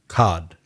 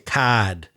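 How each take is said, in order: First: It is said in a general American accent. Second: It is said in a Boston accent.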